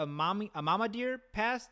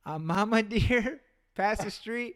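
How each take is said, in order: First: Said in the usual way. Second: Slow, words broken by a laugh; can't hold back the giggle mid-phrase; laughing through it. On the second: Retold or imitated. Retold again, laughing through it.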